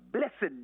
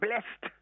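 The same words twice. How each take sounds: First: The ending sounds like an extra id syllable. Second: The ending sounds like a single t. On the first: It is used as an adjective describing something. "that E D sounds I D" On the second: It is used as a verb. "the D E D sounds as a T here"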